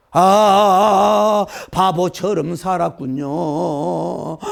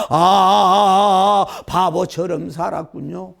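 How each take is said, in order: First: Sung, slow, loud wailing song; mournful sung lament. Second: Loud sung line with rising end; sung, wail it once more, ending on a lift; sung lament repeated. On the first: Regretful wife singing of a wasted life, slow loud lament. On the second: Sung, repeating the regretful lament, loud with rising end. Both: Retold or imitated.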